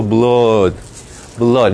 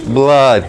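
First: "blood" with a long O, as "blod", pitched low; British blood. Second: "blood" with an A, as "blad"; American blood. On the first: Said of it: "El británico". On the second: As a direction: model American "blood" with an open A-like vowel. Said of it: "Pero en inglés americano". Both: Shown as a demonstration.

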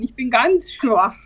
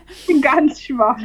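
First: Slow, tired and weak; weak hungover voice. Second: Slow, exaggerated feeble moan; hammed-up weak voice. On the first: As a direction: drag the words out wearily. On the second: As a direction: lay the weakness on thick. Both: Real, not acted.

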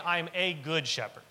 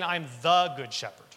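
First: "a" stressed as the key word; weight on "a", not on "good". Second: "the" stressed as the key word; weight on "the", marking the one true shepherd. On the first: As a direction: lean on "a" in "I'm a good shepherd". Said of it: "he isn't just saying". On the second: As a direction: lean on "the" in "I'm the good shepherd". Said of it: "He's saying". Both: Shown as a demonstration.

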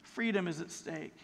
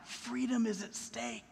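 First: Hushed warning. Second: Grave hushed warning. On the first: Repeated grave warning. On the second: Sermon's grave climax line. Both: Real, not acted.

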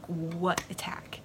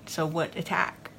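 First: Slow, breathless whisper of confusion; puzzled whisper. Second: Said in the usual way. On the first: Retold or imitated. Dom whispers to the arrested Tyrell, slow and puzzled. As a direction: whisper it, slowly, not understanding.

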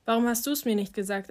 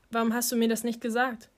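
First: "du's" made the most prominent word, as a counter-question; stress on DU'S. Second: Said in the usual way. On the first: Acted. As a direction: throw the question back, leaning on "du's". Same question turned back on asker.

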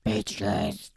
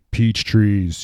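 First: Very low, gravelly Batman growl. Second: Batman voice. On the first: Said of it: "he sounds kinda like Batman". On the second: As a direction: growl it like Batman. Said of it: "he's got this voice like". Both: Retold or imitated.

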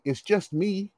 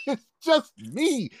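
First: Soft, earnest reassurance, lightly acted; dead serious. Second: High, drawn-out mocking repeat; incredulous echo. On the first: Boy reassuring girlfriend's father, sincerely matter-of-fact. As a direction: say it as an obvious, harmless fact. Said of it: "I was dead serious". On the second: Angry father repeating the boy's excuse, incredulous. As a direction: throw the words back slowly in disbelief. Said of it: "he got angrier".

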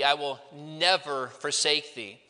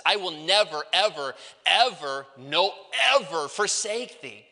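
First: Said in the usual way. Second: "never" and each "ever" punched separately, building; emphatic negation. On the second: Shown as a demonstration. Preacher showing the Greek emphasis to students, emphatic negation. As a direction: hit every "ever" hard, with a break before the next. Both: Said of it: "but that's the emphasis".

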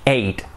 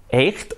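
First: Said in the usual way. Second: EIGHT read as spelt, with the GH sounded; spelling pronunciation. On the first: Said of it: "Es exactamente lo mismo". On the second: Shown as a demonstration. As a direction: sound out the silent GH in EIGHT like a Spanish J. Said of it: "se escribe totalmente diferente".

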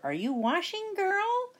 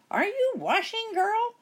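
First: High sing-song witch call. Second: High, louder witch calling; impatient witch call. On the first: Witch calling through the door to Sasha, high sing-song. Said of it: "Bony Legs called through the door". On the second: Witch calling through the door again, high and impatient. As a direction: call out, losing patience. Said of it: "Bony Legs called again through the door". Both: A narrator's reading.

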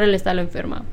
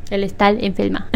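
First: Said in the usual way. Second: "El estar enferma" with each r turned to l. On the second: Shown as a demonstration. Joking over her slip, "enferma" said as "enfelma".

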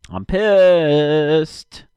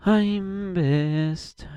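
First: Loud, higher angry outburst; real irritated shout. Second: High, put-on cartoonish whine; higher mock whine of pissed; mock silly voice. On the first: Real, not acted. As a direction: let the frustration burst out. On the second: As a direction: repeat it in a goofy voice.

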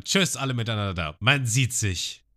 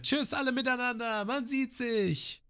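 First: Said in the usual way. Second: Hoch und sehr langsam gerufen; Namis Abschiedsruf. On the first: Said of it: "sie schreit es nicht so wie ich". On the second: Shown as a demonstration. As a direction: ruf es gedehnt übers Wasser. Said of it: "So ist besser". („Tschüss“ hoch und gedehnt wie Nami)

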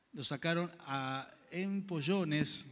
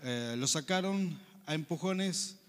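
First: "empollones" read slowly by mistake in place of empujones; misread word. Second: "empujones" read carefully and slowly as the right word; corrected reading. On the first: Preacher reading Acts aloud to the congregation, misreading "empollones". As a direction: stumble through it as "empollones", slow and unsure. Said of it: "empujones debe ser". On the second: Preacher rereading the verse to fix his slip, careful "empujones". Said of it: "A ver, lo voy a leer aquí". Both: Real, not acted.

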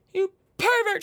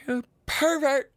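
First: High, loud hammed-up shriek of you pervert; louder mock scolding. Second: High, slow teasing scold; mock scolding. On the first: Calling out Trevor again, louder hammed-up scold. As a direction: shriek pervert in playful outrage. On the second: Teasing a listener named Trevor, mock scolding. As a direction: tease him like a scandalised aunt.

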